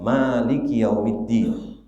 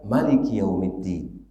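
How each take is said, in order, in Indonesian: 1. Vokal pertama 'ma' dibaca panjang. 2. Vokal pertama 'ma' dibaca pendek. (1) "Bisa jadi ma-nya panjang" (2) "bisa jadi ma-nya pendek"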